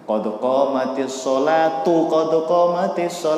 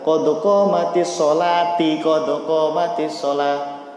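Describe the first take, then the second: First: The first 'sholat' ends with a u vowel. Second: The first 'sholat' ends with an i vowel. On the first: The speaker calls it right. "Untuk sholat di sini domah ya" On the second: The speaker calls it wrong. "Itu salah"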